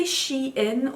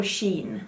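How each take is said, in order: First: "Shein" pronounced SHE-in; two-syllable pronunciation. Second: "Shein" pronounced SHEEN; one-syllable pronunciation. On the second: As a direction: say "Shein" as a single syllable rhyming with "seen". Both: Shown as a demonstration. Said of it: "Do you say Shein or Shein?".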